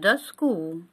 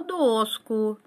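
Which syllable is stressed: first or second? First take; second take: second; first. First: The stress is on the second syllable. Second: The stress is on the first syllable. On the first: The speaker calls it wrong. "не доску" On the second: The speaker calls it right. "но доску"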